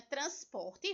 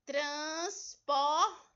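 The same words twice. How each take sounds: First: Said in the usual way. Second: TRANSPORTE in three slow beats, trans, por, te; split into syllables. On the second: Shown as a demonstration. Teacher separating Transporte for pupils, said syllable by syllable. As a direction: pull Transporte apart with a pause after each syllable. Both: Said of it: "vamos separá-la?".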